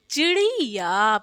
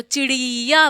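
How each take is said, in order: First: चिड़िया with short "chi-ri", drawn "yaa"; slow, careful "chi-ri-yaa" for चिड़िया; short i's. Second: चिड़िया with stretched middle "ree": chi-reee-yaa; चिड़िया misread with a long ee in ड़ि; wrong long i. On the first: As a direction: keep both i's short in चिड़िया, lengthen only the end. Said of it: "इस पे छोटी लगेगी". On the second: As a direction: draw out the second vowel of चिड़िया. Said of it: "ड़ा पे बड़ी लगा देते हैं". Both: Shown as a demonstration.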